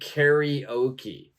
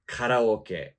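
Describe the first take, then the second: First: It is pronounced with English sounds. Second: It is pronounced with Japanese sounds. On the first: "But in English, we're going to say karaoke" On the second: "the Japanese pronunciation of this would be karaoke"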